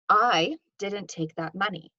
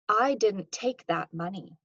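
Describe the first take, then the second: First: The stress falls on the word "I". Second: The stress falls on the word "take". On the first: Someone else took the money. "This implies that potentially somebody else did" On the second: The speaker did not take it but knows something. "This implies that I didn't take it, but I know something"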